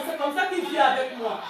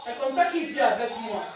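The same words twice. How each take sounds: The two takes are said the same way.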